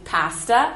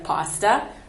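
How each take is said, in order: First: The a vowel is said the Canadian way. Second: The a vowel is said a non-Canadian way. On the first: "in Canada we say pasta" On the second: "instead of pasta"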